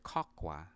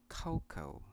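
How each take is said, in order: First: "cocoa" as KOK-wah; common mispronunciation. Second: "cocoa" as KOH-koh; two syllables in "cocoa", both oh; correct pronunciation. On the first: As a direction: end "cocoa" on a sounded wah. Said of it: "some of you pronounce this word". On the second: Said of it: "this word is pronounced". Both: Shown as a demonstration.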